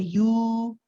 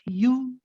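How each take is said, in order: First: The vowel is stretched out long. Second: The vowel is short, one count. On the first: The speaker calls it wrong. "you don't prolong this. It's only one count. So we don't say you" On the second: The speaker calls it right. "it's just you"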